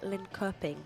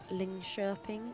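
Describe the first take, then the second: First: The name is said with English pronunciation. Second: The name is said with Swedish pronunciation. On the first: The speaker calls it wrong. "Back in the day, I would have called that" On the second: The speaker calls it right. "Look at me with my Swedish pronunciation"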